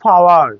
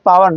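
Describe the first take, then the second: First: পাওয়ার opening on a puff, like ফ; aspirated P. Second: পাওয়ার with a plain P, no puff; unaspirated P. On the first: Teacher correcting power for students, aspirated পাওয়ার. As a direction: say পাওয়ার as "fawar". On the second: Teacher showing the wrong take, unaspirated পাওয়ার. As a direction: keep the P of পাওয়ার breathless. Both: Shown as a demonstration. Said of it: "পাওয়ার না".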